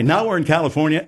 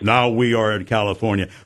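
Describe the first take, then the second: First: The voice moves up and down in pitch. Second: The voice stays flat on one pitch. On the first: The speaker calls it right. "with a smile on your face" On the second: The speaker calls it wrong. "Instead of being"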